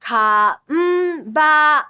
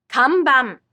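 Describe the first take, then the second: First: Kanban drawn out ka-n-ba-n, both n held; syllabic n twice. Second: Kanban at natural speed, falling; Japanese pronunciation. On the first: Teacher modelling the twice-sounded n for learners. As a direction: stretch kanban showing both n beats. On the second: Teacher giving the word at natural speed after the slow take. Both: Shown as a demonstration. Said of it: "This m sound appears twice".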